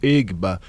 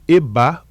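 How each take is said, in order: First: The g sound is pronounced in the name. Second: The g sound is left out of the name. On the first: This is how some people in Brazil say it. "algumas pessoas começaram a reproduzir como Egba" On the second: This is the original African pronunciation. "na pronúncia africana, esse G é mudo"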